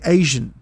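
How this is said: Haitian is said in an imitated island accent.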